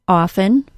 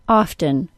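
First: The T sound is left out. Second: The T sound is clearly pronounced. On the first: "no T sound" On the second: "with a T sound"

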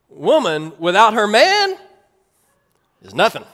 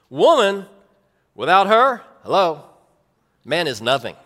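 First: "Without her man" is said as one group. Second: There is a break right after "her".

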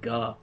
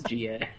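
First: It is said as one syllable, gah. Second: It is said as two letter names, G A. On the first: It is read as an exclamation. The speaker calls it wrong. "I pronounce it the entire time" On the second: It stands for the hero's initials. The speaker calls it right. "I didn't realize his name was GA"

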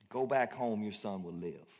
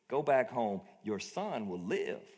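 First: It is said calmly, without force. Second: It is said forcefully, like an exclamation.

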